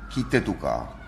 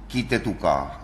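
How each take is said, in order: The two takes are said the same way.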